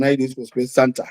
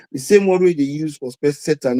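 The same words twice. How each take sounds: First: The word Santa said as SAN-ta, with an n before the t; SAN-ta, like Santa Claus; Santa pronounced. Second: The word Satan said clearly as SAY-tan; Satan pronounced. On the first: Turning the space Satan phrase into Santa, SAN-ta. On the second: Quoting Doctor Mara's phrase, space Satan said as SAY-tan. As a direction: stress the first syllable of Satan, SAY-tan. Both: Retold or imitated. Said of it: "He said the same word".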